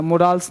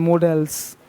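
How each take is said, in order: First: "मोडाल्स", stretching the aa; wrong pronunciation. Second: "मॉडल्स" with a short e-like schwa, soft; mo-dels, short vowel, no aa; correct pronunciation. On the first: Teacher contrasting wrong "मोडाल्स" with long aa. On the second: Teacher giving the correct "मॉडल्स", short vowel. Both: Shown as a demonstration. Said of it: "मोडाल्स नहीं".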